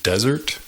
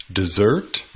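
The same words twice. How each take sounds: First: Desert as DEZ-ert, the noun; stress on first syllable. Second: Desert as de-ZERT, the verb; weak first syllable, stressed ending on Desert; stress on second syllable. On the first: Teacher gives more examples, desert stressed on first syllable. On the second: Teacher gives more examples, Desert stressed on second syllable. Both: Shown as a demonstration. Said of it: "Hay muchos ejemplos más".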